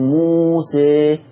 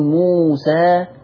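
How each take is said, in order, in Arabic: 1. الصوت الأخير مائل نحو 'e'. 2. الصوت الأخير فتحة خالصة 'a'. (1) "لما أنا نطقت الألف في موسى ابتديت أميل" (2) "إن حكم الألف في كلمة موسى النطق الأول هذا حكمه الفتح"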